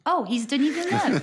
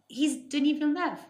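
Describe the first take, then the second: First: Mock grand announcement. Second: Said in the usual way. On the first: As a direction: say the name as if it should impress. Mock restatement, listener laughs.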